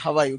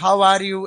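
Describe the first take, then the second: First: The words run together, with 'are' blended in. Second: Each word is said separately, with 'are' fully pronounced. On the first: The speaker calls it right. "ये इसका सही उच्चारण होता है हवा यू" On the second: The speaker calls it wrong. "ऐसे तो हम बोलते हैं हाउ आर यू"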